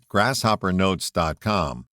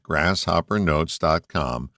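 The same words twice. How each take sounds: First: Said in the usual way. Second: Slower, measured web address; careful repeat. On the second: Real, not acted. Host repeating his website for listeners, careful and slower. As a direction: say it slowly so they catch it. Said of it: "let me repeat that".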